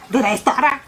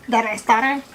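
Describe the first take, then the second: First: Laughing. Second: Said in the usual way. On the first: Real, not acted. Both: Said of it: "I'm stuttering".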